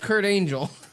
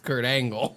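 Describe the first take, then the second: First: The surname is said like the word angel. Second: The surname is said like the word angle. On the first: The speaker calls it wrong. "like the people who say it's oh, it's Kurt Angel. No, it's not" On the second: The speaker calls it right. "It's Kurt Angle. That's his name"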